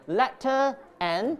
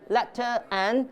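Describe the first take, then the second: First: A glottal stop separates the two words. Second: The same.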